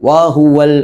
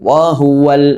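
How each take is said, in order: No difference in how they are said.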